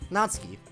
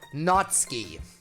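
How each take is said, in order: First: The u after ts is barely heard. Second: The u after ts is fully pronounced. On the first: The speaker calls it right. "you have to make it very subtle" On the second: The speaker calls it wrong. "at the one hundred end of the scale"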